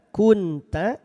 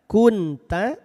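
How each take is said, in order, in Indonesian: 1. Huruf n diucapkan dengan jelas dan singkat. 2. Huruf n diucapkan dengan jelas dan singkat.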